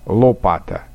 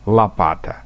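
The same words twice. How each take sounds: First: The first vowel is a clear, distinct o. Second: The first vowel sounds like an a. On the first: This is the Upper Volga way of speaking. "говорят «о» более отчетливо" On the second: This is the Moscow-region way of speaking. "акают"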